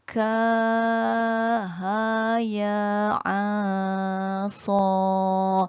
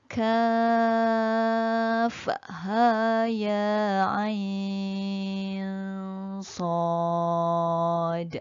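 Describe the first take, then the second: First: Each letter is said as a short syllable. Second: Each letter is said by its full name. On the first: The speaker calls it wrong. "Jangan baca ka ha ya a so. Itu tak betul ya" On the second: The speaker calls it right. "bacaan yang tepat macam tadi"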